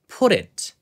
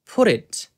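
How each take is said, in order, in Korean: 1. 가운데 t는 부드러운 탄설음이에요. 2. 가운데 t는 부드러운 탄설음이에요.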